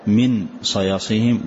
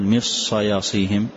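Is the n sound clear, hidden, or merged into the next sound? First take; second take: clear; merged. First: The n is pronounced clearly and separately. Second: The n merges fully into the following s. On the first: "ولا تقول كالإظهار من صياصيهم" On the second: "فما تقول من صياصيهم كالإدغام"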